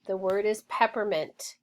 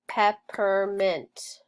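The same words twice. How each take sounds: First: Said in the usual way. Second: "Peppermint" said slowly, each syllable clear; slow it down for the kids; slow, clear modeling of "Peppermint"; slow careful repeat. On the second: Shown as a demonstration.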